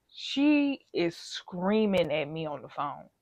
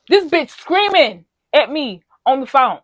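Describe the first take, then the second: First: Said in the usual way. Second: Louder, worked-up retelling; real outrage boiling over as she repeats it; getting passionate. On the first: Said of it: "I'm getting passionate". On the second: Real, not acted. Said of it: "I'm sorry, I'm getting passionate".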